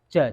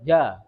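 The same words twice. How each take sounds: First: The j is released with a puff of air. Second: The j is released with no puff of air. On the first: This is the Indonesian sound. "Kalau Indonesia ja, ji, ju ada anginnya" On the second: This is the Arabic sound. "Ja itu enggak ada angin yang keluar"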